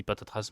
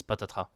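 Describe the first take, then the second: First: "patatras" with the last s sounded; "patatras" rhyming with "trace"; final s pronounced. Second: "patatras" with no s sound at the end; silent final s. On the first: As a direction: end "patatras" on a clear s. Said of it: "Moi, je dis patatras". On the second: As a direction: finish "patatras" on the vowel a. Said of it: "la plupart des gens disent". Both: Shown as a demonstration.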